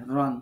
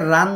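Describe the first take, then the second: First: রন said with a short, rounded o vowel; short ron vowel. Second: রান said with a long, open a vowel; long open ran. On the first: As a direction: keep রন short and rounded, not an open a. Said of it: "আমি যদি এটাকে রান বলি". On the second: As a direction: stretch রান into an open a sound. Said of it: "আমি যদি এটাকে রান বলি তাহলে কি হবে". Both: Shown as a demonstration.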